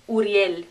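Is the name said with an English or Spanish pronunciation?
Spanish. It is said with Spanish vowels and sounds. The speaker calls it right. "You know that's U"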